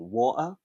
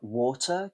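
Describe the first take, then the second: First: The middle consonant is a glottal stop. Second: The middle consonant is a clear t sound.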